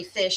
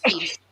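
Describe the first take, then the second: First: Said in the usual way. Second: "feesh" with a long ee vowel; imitating mom's "feesh" for fish; mother's accent. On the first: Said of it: "she doesn't say fish". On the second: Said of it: "she says feesh".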